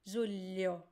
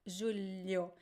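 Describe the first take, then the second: Both takes have the same delivery.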